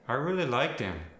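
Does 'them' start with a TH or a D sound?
D. The word them starts with a D sound.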